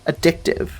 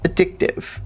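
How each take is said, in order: First: Said in the usual way. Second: Breathy whisper of Addictive, unpitched and soft. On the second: Shown as a demonstration. Player whispering the word to himself, hushed.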